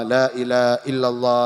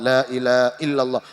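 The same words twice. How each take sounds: First: The phrase is slurred and the h is dropped. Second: The phrase is slurred and the h is dropped.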